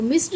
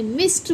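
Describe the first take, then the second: First: "मिस्ड" with a voiced d at the end; wrong d ending. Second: "मिस्ड" said as "mist"; correct t ending. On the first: Teacher repeats the mistake, मिस्ड with d. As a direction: say "मिस्ड" as "miss-d". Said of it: "मिस्ड नहीं बोलते". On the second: Teacher corrects learners, मिस्ड with t ending. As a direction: end "मिस्ड" on t, not d. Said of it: "मिस्ड बोलते हैं". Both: Shown as a demonstration.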